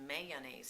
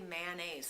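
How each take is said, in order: First: The first syllable sounds like 'may'. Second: The first syllable sounds like 'man'. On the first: The speaker calls it right. "But it's mayonnaise" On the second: The speaker calls it wrong. "I say mayonnaise like it's M A N N A I S E"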